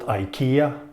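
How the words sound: The name is pronounced the American way. The speaker calls it wrong. "not IKEA as an American says"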